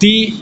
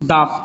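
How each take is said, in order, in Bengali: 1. 'the' শব্দের স্বরধ্বনি একটি লম্বা 'ee' ধ্বনি। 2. 'the' শব্দের স্বরধ্বনি একটি ছোট 'uh' ধ্বনি। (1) "দি হবে, কারণ অ্যাপেলটা ভাওয়েল দিয়ে শুরু" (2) "তাহলে হবে দা"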